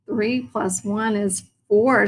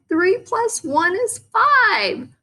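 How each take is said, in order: First: Said in the usual way. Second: "five" shouted high and slow; high excited yell. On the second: Shown as a demonstration. Froggy yelling the wrong sum to class. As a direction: boast "five" loudly and wrongly.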